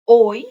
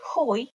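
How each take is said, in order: First: The H sound is silent. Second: The H sound is pronounced. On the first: The speaker calls it right. "H is silent" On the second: The speaker calls it wrong. "Don't say hoy"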